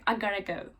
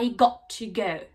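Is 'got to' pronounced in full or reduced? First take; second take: reduced; full. First: Got to is reduced to gotta. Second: Got to is said as two full words. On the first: This is the American way of saying it. "Amerikalarda I gotta go şeklinde söyleniyor" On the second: This is the British way of saying it. "İngiliz aksanı bu biraz da I got to go"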